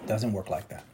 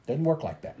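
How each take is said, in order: First: Lower, softer "Doesn't work like that."; low murmured echo. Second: Soft "Doesn't work like that."; quiet verdict. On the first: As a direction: murmur it to yourself. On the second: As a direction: settle it softly. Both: Acted.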